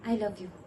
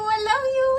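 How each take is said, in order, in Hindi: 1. यह वाक्य धीरे से बोला गया है। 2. यह वाक्य ज़ोर से बोला गया है। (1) "मैं धीरे से कह देती हूँ" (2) "उसे मैं जोर से बोलूं"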